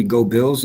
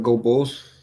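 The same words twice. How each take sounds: First: "Bills" with a short i, as in bill. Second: "Bulls" with the u of full. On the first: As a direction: say "Go Bills" with a clear i vowel. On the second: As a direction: say "Go Bulls" with a rounded u vowel. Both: Shown as a demonstration. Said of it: "was that supposed to be".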